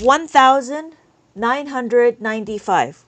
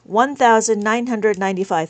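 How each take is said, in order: First: Slow, deliberate reading of the number; teacher spelling out the number for students, slowly; slow counting read-out. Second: Said in the usual way. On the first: Shown as a demonstration. Teacher reading the abacus value to the class, slow and deliberate. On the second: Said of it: "We have one thousand nine hundred ninety-five".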